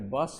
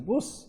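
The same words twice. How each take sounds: First: It is said with a standard English vowel. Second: It is said with a Yorkshire vowel.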